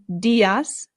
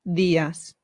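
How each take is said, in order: First: The D is hard, English-style. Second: The D is soft, tongue behind teeth. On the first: The speaker calls it wrong. "instead of saying" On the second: The speaker calls it right. "it becomes"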